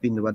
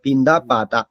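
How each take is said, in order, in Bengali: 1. প্রথম শব্দটি 'u' ধ্বনি দিয়ে শেষ হয়। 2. প্রথম শব্দটি 'a' ধ্বনি দিয়ে শেষ হয়। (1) "আমি আমাদের ওখানে বলেছে পিন্দু পাতা" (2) "আসলে এটা পিন্দু পাতা না, পিন্দা পাতা"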